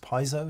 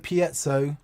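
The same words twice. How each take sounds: First: It is said with an American pronunciation. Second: It is said with a British pronunciation. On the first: "in America the pronunciation is piezo" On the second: "we say piezo"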